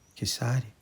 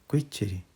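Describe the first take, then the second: First: The name is said with an s sound. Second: The name is said with a t sound. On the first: This is the reading from the certificate and dictionary. "eu li na certidão Kissari" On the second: This is how a relative says it. "O meu tio-avô João diz que é Quitiri"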